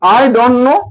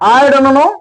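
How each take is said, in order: The two takes are said the same way.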